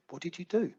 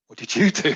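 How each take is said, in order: First: Soft, higher-pitched gentle question; retold calm. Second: Louder question with YOU punched; stress on YOU. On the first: Calm caller asks her helper on the phone, retold calm. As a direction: imitate her asking quietly, lifting at the end. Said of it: "of this calm human being". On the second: Retold or imitated. Helper turns the question back on caller, stress on YOU. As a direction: throw the question back, leaning hard on "you".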